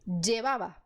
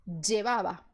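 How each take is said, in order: No difference in how they are said.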